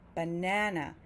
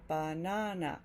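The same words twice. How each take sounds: First: The middle syllable is louder and longer. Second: All three syllables get equal stress. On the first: "that middle syllable, the second syllable, is louder and longer" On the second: "each of those sounds is equal"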